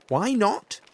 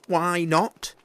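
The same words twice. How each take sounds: First: Put-on high, loud little-child voice; the child demanding an answer, loud; child's question. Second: Put-on high, loud child voice, rising; child's question again. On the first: Gruffalo's child asking her dad why not. Child asks father in story. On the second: Gruffalo's child pressing her dad again. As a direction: press him again like a curious kid.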